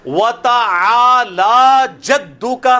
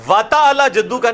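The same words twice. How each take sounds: First: وَتَعَالَى with the عَا stretched long and slow; صحیح تلفظ، کھینچ کر; correct pronunciation. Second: وَتَعَالَى with the عَا rushed short; غلط تلفظ; wrong pronunciation shown. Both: Shown as a demonstration. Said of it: "نہیں ہے".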